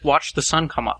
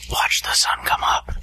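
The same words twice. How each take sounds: First: It is said in a normal voice. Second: It is said in a spooky voice.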